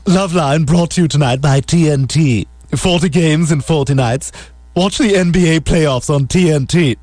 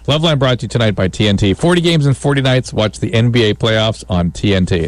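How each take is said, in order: First: It is read in a Stewie impression voice. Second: It is read in a plain, natural voice.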